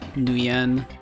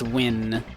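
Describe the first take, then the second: First: It is said differently from the single syllable 'win'. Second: It is said as the single syllable 'win'. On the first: The speaker calls it wrong. "not Nguyen" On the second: The speaker calls it right. "probably pronounced Win"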